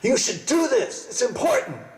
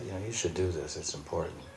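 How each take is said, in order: First: It is said loudly and emphatically. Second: It is said calmly and plainly.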